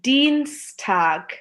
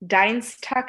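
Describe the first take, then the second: First: The first vowel sounds like 'ee'. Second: The first vowel sounds like 'eye'. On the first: The speaker calls it right. "এটা হবে ডিনস্টাগ" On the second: The speaker calls it wrong. "ডাইনস্টাগ না"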